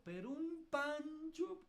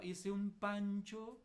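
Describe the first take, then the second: First: "un pancho" stretched slow and pitched high; dramatic emphasis on "pancho"; stress on pancho. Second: Said in the usual way. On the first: Real, not acted. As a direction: lean on "pancho" slowly, way up. Repeats for emphasis.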